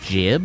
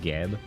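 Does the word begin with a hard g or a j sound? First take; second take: J sound; Hard g. First: The word begins with a soft j sound. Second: The word begins with a hard g sound. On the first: It refers to giblets. "I presume that it's actually supposed to be jib" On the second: It is the form the speaker grew up saying. "I grew up saying that, and like that sounds right to me"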